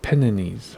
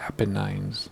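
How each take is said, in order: First: "Apennines" drawn out as uh-PEN-uh-neez; Apennines ending in "neez". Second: "Apennines" as APP-uh-nines; Apennines ending in "nines". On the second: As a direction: end "Apennines" on a long-I "nines". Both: Shown as a demonstration. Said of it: "Is it Apennines or".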